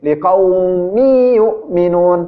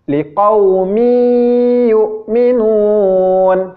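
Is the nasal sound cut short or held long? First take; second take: cut short; held long. First: The nasal hum is rushed and cut short. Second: The nasal hum is held long, unhurried. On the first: The speaker calls it wrong. "tidak menahan tanwinnya" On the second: The speaker calls it right. "membaca dengung yang ditahan cara membacanya seperti ini"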